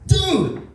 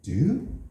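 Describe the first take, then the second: First: It is exclaimed in loud astonishment. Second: It is asked as a question. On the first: That is shockingly big. "your dick is way too big" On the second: Are you all right? "you can ask a question like, hey, are you all right?"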